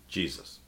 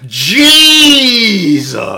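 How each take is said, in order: First: It is said plainly at normal volume. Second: It is said loudly with strong emphasis.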